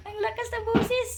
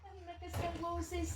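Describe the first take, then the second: First: "Ang lakas ng boses" said up high and playful; high bright "boses" with a playful lift; high teasing voice. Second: Much softer murmured remark; soft "Ang lakas ng boses" said almost to herself; hushed aside. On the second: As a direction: mutter it under your breath. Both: Real, not acted. Remark on the loud pet.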